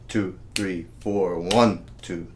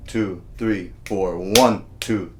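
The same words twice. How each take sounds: The two takes are said the same way.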